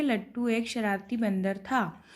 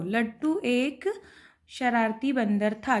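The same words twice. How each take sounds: First: Said in the usual way. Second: Slow and drawn out for writing; dictating each word slowly; slow dictation. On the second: Shown as a demonstration. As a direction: spell it out slowly for the class. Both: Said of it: "क्या लिखेंगे?".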